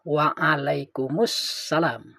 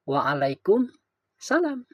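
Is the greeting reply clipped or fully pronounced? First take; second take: full; clipped. First: Every sound of the reply is pronounced. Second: Some sounds of the reply are dropped. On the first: The speaker calls it right. "yang benar itu kan mestinya" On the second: The speaker calls it wrong. "ada minimal tiga huruf yang dibuang"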